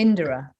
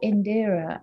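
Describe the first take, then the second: First: The middle syllable is nearly dropped, like Indra. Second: All three syllables are said fully. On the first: The speaker calls it right. "the rhythm is Indira" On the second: The speaker calls it wrong. "I wasn't pronouncing my own bloody name"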